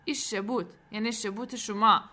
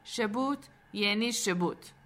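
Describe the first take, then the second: First: Mildly mocking echo through pouted lips; pouting jibe. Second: Slow, deliberate curt answer; frowning retort. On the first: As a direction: throw the word back with a pout. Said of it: "لبهایش را لوچه کرد و گفت". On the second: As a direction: close the subject with a scowl. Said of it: "با همان اخم همیشگیش گفت". (جواب با اخم) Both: A narrator's reading.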